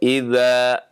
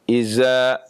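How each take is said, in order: First: The middle consonant is a soft 'th' sound. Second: The middle consonant is a 'z' sound. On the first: "ketika membaca idza" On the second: "Atau berubah menjadi zai"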